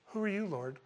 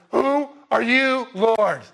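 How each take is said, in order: First: Soft, mild little question; mild casual asking. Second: Loud, high, slow cry with every word drawn out; awestruck Paul. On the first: Preacher showing how Paul didn't ask it, soft and unbothered. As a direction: ask it lightly and quietly, as if nothing happened. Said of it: "I don't think Paul went". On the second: Preacher showing how Paul would have asked, loud and overwhelmed. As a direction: call it out slowly at full voice, overwhelmed. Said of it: "Paul would have went". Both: Acted.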